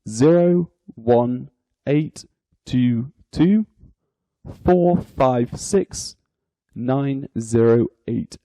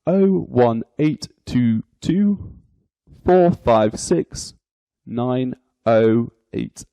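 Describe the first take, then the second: First: The digit 0 is said as 'zero'. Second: The digit 0 is said as 'oh'. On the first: "you would read out aloud" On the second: "Or you could pronounce it"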